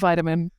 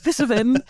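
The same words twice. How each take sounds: First: It is said in a non-British accent. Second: It is said in a British accent. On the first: "otherwise, it's always going to be vitamin" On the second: "going to sound British today"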